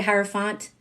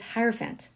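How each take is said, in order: First: Hierophant ending in an open "font"; alternative hierophant. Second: Hierophant ending in "fant" as in elephant; preferred hierophant. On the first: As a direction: say hierophant with FONT as last syllable. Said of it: "Some people say hierophant". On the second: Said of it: "But it's hierophant". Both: Shown as a demonstration.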